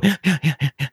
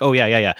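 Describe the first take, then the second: First: "Yeah, yeah" said on an in-breath; inhaled yeses. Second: Said in the usual way. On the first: Shown as a demonstration. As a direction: gasp the "yeah"s in while breathing in. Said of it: "They breathe in their yeses". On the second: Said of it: "they wanna be like".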